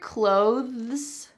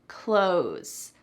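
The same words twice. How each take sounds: First: The TH sound is clearly pronounced. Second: The TH sound is dropped, like 'close'. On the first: "Do you hear clothes?" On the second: "that T H is really cut out completely"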